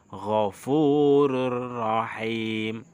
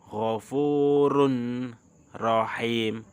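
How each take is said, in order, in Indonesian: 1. Bunyi n melebur ke bunyi r yang mengikutinya. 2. Bunyi n tetap dipertahankan sebelum r. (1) "Tetapi bacanya ghafurur rahim" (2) "Tulisannya ghafurun rahim"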